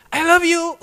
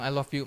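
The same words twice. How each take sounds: First: High, loud call of I love you from another room; wife calling I love you loudly from inside; shouted from inside. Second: Said in the usual way. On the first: Retold or imitated. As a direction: shout it up and out so it carries through the house. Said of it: "teriak dari dalam". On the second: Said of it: "saya lupa bilang".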